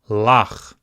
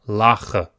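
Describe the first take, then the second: First: The word ends on the final consonant. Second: The word ends with an added vowel sound. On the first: The speaker calls it right. "It's simply lach" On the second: The speaker calls it wrong. "You don't say lacha"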